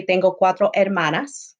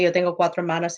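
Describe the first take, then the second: First: "Tengo cuatro hermanas" with the final "hermanas" ending clearly in -as. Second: "Yo tengo cuatro hermanos" with the final "hermanos" ending clearly in -os. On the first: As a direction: stress the -as of "hermanas" to mark all sisters. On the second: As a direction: land on the -os of "hermanos" to mean brothers. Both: Shown as a demonstration. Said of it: "Or I could say".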